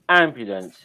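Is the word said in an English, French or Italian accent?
English. It is said in an English accent. "English goes ambulance"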